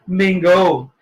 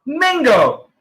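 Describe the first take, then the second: First: Mango said as "MENG-go"; teacher models mango again; correct pronunciation. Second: Mango said as "MING-go"; wrong pronunciation. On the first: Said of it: "sabi ko kanina". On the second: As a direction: flatten mango to "mingo". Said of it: "Ang sabi mo". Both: Shown as a demonstration.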